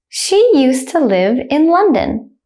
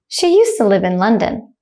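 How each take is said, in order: First: It is said slowly and carefully. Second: It is said quickly at natural speed. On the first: "I will say it slowly first" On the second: "then at a native speaker speed second"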